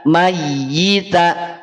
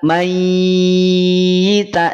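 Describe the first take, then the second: First: The doubled y is pressed briefly, not held. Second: The doubled y is held and lengthened. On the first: The speaker calls it right. "Tapi kalau yang ditekan" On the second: The speaker calls it wrong. "Yang ditahan seperti ini"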